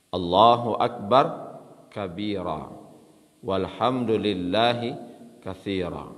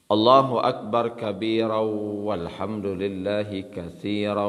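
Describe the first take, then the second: First: The phrases are separated by pauses. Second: The phrases run together in one breath. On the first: Each part's meaning can be taken in. The speaker calls it right. "kalau kita pisah-pisahkan, begitu cara membacanya" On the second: The meaning slips past without being grasped. The speaker calls it wrong. "kalau kita sambung satu nafas"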